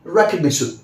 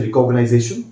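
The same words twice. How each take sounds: First: Recognition as REK-ug-NI-shun; correct pronunciation. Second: Recognition as re-cog-uh-nai-ZAY-shun; wrong pronunciation. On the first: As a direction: say recognition with a short "ni-shun" ending. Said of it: "but what I say is". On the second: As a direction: say recognition ending in "-nize-ation". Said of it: "ऐसे मत बोलिए recognition". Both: Shown as a demonstration.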